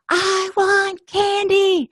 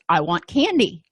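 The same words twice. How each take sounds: First: It is screamed at full volume. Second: It is said a little louder.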